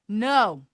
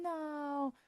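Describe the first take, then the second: First: The word is said loudly and firmly. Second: The word is said softly and hesitantly. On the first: The refusal is final. The speaker calls it right. "say no out loud. Real" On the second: The refusal leaves room to be talked into a yes. The speaker calls it wrong. "we have a way of saying no, mm"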